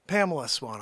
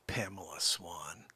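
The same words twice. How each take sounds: First: Said in the usual way. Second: Breathy whispered name, barely voiced; a hushed, secret call-out to a viewer. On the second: Real, not acted.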